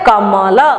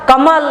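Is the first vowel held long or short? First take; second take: long; short. First: The first vowel is held longer. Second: The first vowel is short and quick.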